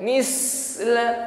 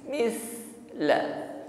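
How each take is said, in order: First: The middle consonant is a sharp hissing sound. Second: The middle consonant is a thin, soft breath. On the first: The speaker calls it wrong. "bukan misla ... Kalau mis berdesis ini masuk pada huruf sin" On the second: The speaker calls it right. "tidak ada bunyi desis ketika mengucapkan sa"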